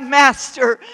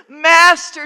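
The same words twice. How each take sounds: First: First cry of Master, loud and falling. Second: Second Master pitched higher and louder; crying out higher. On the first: Disciple in the storm crying out, loud. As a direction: call out to the master. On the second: Disciple in the storm crying out higher, desperate. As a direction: cry it again, more desperate. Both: Acted. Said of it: "you've cried out".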